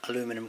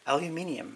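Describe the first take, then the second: First: The word has four syllables, ending in 'num'. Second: The word has five syllables, ending in 'nium'. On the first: The speaker calls it wrong. "None of that aluminum crap here" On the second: The speaker calls it right. "I managed to say it correctly right today"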